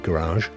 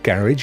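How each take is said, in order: First: It is said with an American pronunciation. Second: It is said with a British pronunciation. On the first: "Americans tend to say garage" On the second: "I say uh, garage in the U K"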